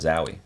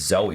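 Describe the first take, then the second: First: The first vowel sounds like 'ow'. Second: The first vowel sounds like 'oh'. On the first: The speaker calls it wrong. "not Zowie" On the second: The speaker calls it right. "I learned that it's, it's Zoe"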